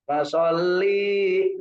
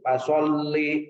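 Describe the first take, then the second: First: The vowel in 'li' is drawn out long. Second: The vowel in 'li' is kept short. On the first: The speaker calls it wrong. "li-nya dipanjang" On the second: The speaker calls it right. "Pendek itu Bu"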